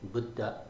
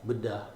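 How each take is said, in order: Both takes have the same delivery.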